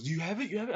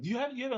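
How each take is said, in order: First: Anxious quick questions; a touch of panic; freaking out. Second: Much higher, frantic pleading; rising frantic panic; freaking out. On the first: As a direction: retell his nervous urgency. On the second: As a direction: act out his panic, pitched way up. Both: Retold or imitated. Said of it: "he's freaking out".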